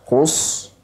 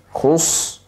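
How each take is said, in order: Both takes have the same delivery.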